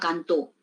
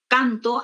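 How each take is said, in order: First: The stress is on the last syllable. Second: The stress is on the first syllable. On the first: It means he or she sang. "pasa a la eh, última sílaba, ya tiene un significado distinto" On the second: It means I sing. "la mayor fuerza de voz, pues que está en la penúltima sílaba"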